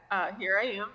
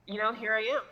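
First: Said in the usual way. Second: Holding back a laugh; stifled giggle on the words; trying not to laugh. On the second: Real, not acted. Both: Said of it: "I'm trying not to laugh".

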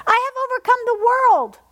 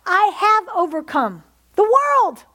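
First: Higher, louder triumphant repeat; climactic shout. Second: Slow emphatic proclamation, weight on world; slow declaration. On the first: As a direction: lift it to a triumphant peak. Repeated declaration, second take. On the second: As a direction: lay down each word of I have overcome the world. Repeated declaration, first take. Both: Acted.

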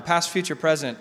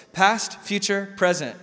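First: Said in the usual way. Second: Past, future, present spelled out slowly; slow listing. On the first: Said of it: "He uses them all the time". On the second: Shown as a demonstration. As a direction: lay out each bucket word by word. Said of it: "three buckets".

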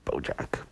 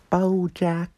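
First: Said in the usual way. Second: "BoJack" said much higher, in a put-on cartoon manager's accent; Princess Carolyn voice. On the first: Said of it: "but BoJack. That's how Princess Carolyn sounds". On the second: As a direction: say "BoJack" like the showbiz agent from the show, pitched way up. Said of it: "That's how Princess Carolyn sounds".

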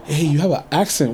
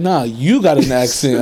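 First: Said in the usual way. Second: YOU punched harder, turning it back; stress on YOU. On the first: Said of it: "so many people like". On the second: Retold or imitated. Throwing the accent remark back at strangers, stress on YOU. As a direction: lean on "you" as a mock retort.

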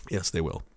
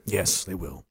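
First: Ominous echo. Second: Deep ominous mutter. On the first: Deep quiet ominous echo. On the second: Deep quiet ominous agreement. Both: Acted.

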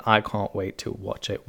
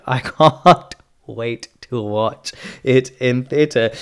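First: Said in the usual way. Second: Loud, slow, drawn-out "can't"; emphatic correction. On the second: Real, not acted. Host redoing a fumbled line, emphatic on "can't". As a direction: stretch "can't" out with a laugh, loudly.

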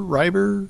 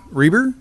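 First: "eye" vowel in Reiber, checking; tentative correct pronunciation. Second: Long "ee" in Reiber, voice lifting unsure; tentative mispronunciation. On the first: Chair checking the name with its owner, questioning RYE-ber for Reiber. Third guess, confirmed by the owner. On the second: Chair guessing at the next speaker's surname, tentative REE-ber for Reiber. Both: Real, not acted.

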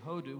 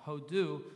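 First: HO-du, accent on the HO; stress on first syllable. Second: Said in the usual way. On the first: Shown as a demonstration. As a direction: hit the first syllable of hodu. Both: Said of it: "with the accent on the first syllable".

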